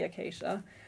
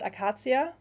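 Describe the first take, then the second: First: The word is pronounced the English way. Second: The word is pronounced the German way. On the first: "I think it's probably acacia" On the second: "in German I always pronounce it Acacia"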